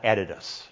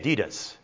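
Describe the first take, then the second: First: It is said with an Australian pronunciation. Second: It is said with an American pronunciation. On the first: "not Adidas" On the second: "We say Adidas"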